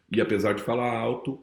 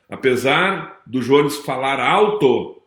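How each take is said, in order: First: Soft, lowered voice; falando baixo. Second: Said in the usual way. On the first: Shown as a demonstration. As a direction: drop to a quiet, low register. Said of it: "também sabe falar baixo". (em voz baixa e grave)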